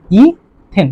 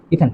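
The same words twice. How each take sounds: First: "ইথেন" stretched as ই, then থেন; syllable-split pronunciation. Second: Said in the usual way. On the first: Shown as a demonstration. Teacher joining the name for students, "ইথেন" drawn out in two parts. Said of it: "তাহলে এটার নাম কি হবে?". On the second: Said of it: "কি হয়ে যাবে?".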